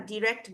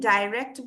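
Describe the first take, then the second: First: ডাইরেক্ট with a short "di" first syllable; variant pronunciation. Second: ডাইরেক্ট with a long "dai" first syllable; variant pronunciation. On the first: Teacher showing the other accepted variant, ডাইরেক্ট as "di-rekt". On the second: Teacher showing one of two accepted variants, ডাইরেক্ট as "dai-rekt". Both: Shown as a demonstration. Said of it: "British আর American pronunciation different".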